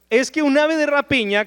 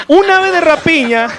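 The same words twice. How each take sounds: First: Said in the usual way. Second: Loud emphasis. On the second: Acted. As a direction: raise the voice, higher and louder, on the key phrase. Opens the point on the bird. (dicho en voz alta y aguda, con énfasis)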